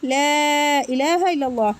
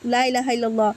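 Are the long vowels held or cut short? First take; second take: held; cut short. First: The long vowels are held out fully. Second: The long vowels are cut short and rushed. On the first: The speaker calls it right. "অবশ্যই আমরা লা ইলাহা ইল্লাল্লাহ" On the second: The speaker calls it wrong. "টান না দিয়ে এরকম দ্রুত পড়ে ফেলি"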